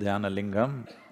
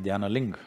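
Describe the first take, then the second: First: The final syllable is fully pronounced. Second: The final syllable is cut off. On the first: "If you say" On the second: "they'll say ... the last syllable, they'll cut it off"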